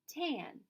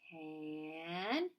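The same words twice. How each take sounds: First: The word is said quickly as one normal word. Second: The word is stretched out slowly, sound by sound. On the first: "And fast like a word" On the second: "Say it slowly"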